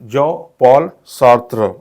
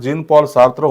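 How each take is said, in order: First: The first name is 'zhaw' without an n. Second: The first name is 'jeen' ending in n. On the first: The speaker calls it right. "काय होतो?" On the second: The speaker calls it wrong. "Correct उच्चार हा जीन Paul Sartre होत नसून"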